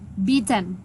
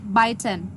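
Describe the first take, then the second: First: The first vowel sounds like the vowel in 'bee'. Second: The first vowel sounds like the vowel in 'bite'. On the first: The speaker calls it right. "So the correct pronunciation is beaten" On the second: The speaker calls it wrong. "you pr- pronounce it biten"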